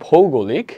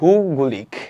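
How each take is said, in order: First: The first vowel is the diphthong 'ou'. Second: The first vowel is a plain 'u'. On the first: The speaker calls it right. "আমার পড়া উচিত ভৌগোলিক" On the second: The speaker calls it wrong. "আমি পড়তেছি ভূগোলিক not okay একদমই ঠিক না"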